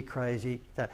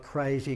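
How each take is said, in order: First: Crazy dropped low and much softer; softer echo. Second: Crazy with a long drawn-out k; stretched crazy. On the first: Echoing his own emphatic word, quieter crazy. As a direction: let the second crazy fall away softer. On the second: Describing the market share jump, drawn-out emphatic crazy. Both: Shown as a demonstration. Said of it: "We're talking, like, dumb, nu-, like".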